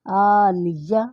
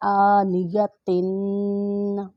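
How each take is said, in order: First: आनिया ending on a long open "-ya", no "tin"; pause form. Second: आनिया तिन read on through the final "tin"; without pause. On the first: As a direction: stop on आनिया without the final n. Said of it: "अगर वक़्फ़ करेंगे तो फिर पढ़ेंगे". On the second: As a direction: keep the tanween: "aaniyatin". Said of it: "अगर वक़्फ़ नहीं करेंगे तो फिर पढ़ेंगे". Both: Shown as a demonstration.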